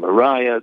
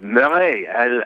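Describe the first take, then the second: First: It is said with an English pronunciation. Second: It is said with a French pronunciation. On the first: The speaker calls it wrong. "everybody in New York gets confused. They say Grand Mariah" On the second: The speaker calls it right. "French. ... it's Marais, absolument"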